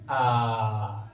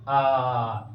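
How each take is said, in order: First: आ drawn out for three beats, low; extra-long aa. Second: आ stretched three beats; extra-long aa. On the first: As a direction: hold the आ very long. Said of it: "और अधिक समय लगाएंगे". (आ को तीन मात्रा तक खींचकर) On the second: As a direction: hold the आ longer still. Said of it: "थोड़ा अधिक समय लगेंगे". (प्लुत आ, तीन मात्रा) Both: Shown as a demonstration.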